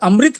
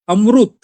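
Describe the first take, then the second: First: It is said with a standard Hindi pronunciation. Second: It is said with a South Indian pronunciation. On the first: This is how the speaker's own community says it. "अमृत हम लोग कहते हैं" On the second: This is how it is said in the south. "अमृत वहाँ उच्चारण होता है"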